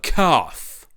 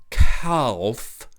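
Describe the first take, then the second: First: The word is said with no l sound. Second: The word is said with an l sound. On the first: This is how the mocked character says it. The speaker calls it wrong. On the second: This is how the critic thinks it should be said. The speaker calls it right.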